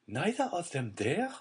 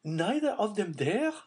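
First: Dazed, half-voiced question; stunned disbelief. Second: Higher, louder stricken question; horrified disbelief. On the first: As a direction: repeat it numbly in shock. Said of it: "she again said". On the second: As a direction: press the words home in horror. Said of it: "striving to impress herself with the meaning". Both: A narrator's reading.

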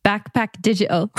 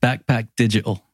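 First: Put-on English accent that slips toward Irish; attempted English accent. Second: English accent, said plainly as a model; native English accent. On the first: Guest repeats after the host, imitated English accent. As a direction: have a go at mimicking an English accent. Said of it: "hear you do it in an English accent". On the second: Shown as a demonstration. Host models the phrase for guest to repeat, English accent. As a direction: say it in your own English accent. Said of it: "I'll do it in my native accent".

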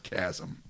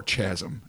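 First: Said in the usual way. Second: "chasm" said the house way, "shazzum"; joking local chasm pronunciation. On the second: Shown as a demonstration. Host telling the listeners the show's own pronunciation of "chasm". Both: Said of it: "as we like to say around here".

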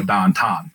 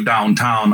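First: DOWNTOWN in Pittsburgh accent, "ow" flattened to a long "ah". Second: Said in the usual way. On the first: Shown as a demonstration. Pittsburgh native explaining local speech, DOWNTOWN as "dahntahn" in Pittsburgh accent. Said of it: "So if I wanna go downtown, I'd go". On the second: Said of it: "elongate everything".

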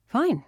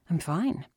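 First: Quick, higher, louder cheery reply; cheerful. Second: A touch of cheer, near usual pitch; understated cheery reassurance; mildly cheerful. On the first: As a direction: answer brightly with a big falling tune. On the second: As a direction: reassure lightly, less upbeat. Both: A narrator's reading. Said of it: "he said cheerfully".

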